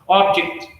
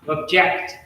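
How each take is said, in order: First: The stress is on the first syllable. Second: The stress is on the second syllable. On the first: It is used as a noun. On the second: It is used as a verb. "verb. So you'll see that stress shift to second syllable"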